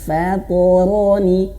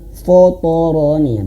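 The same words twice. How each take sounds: First: The first syllable sounds light and thin. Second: The first syllable sounds heavy and dark. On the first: The speaker calls it right. "fa-nya jangan terbawa tebal" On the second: The speaker calls it wrong. "jangan ... terbawa tebal"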